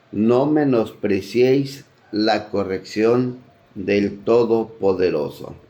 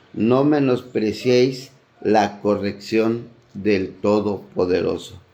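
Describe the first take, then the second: The two takes are said the same way.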